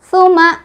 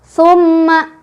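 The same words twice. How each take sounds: First: A single m is said with no nasal hold. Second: The doubled m is nasalized but held briefly. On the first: "nggak ada tasdidnya ya, salah, jadi otomatis nggak ada dengung" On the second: "udah betul ada tasdid tapi dengungnya kurang menahan ya"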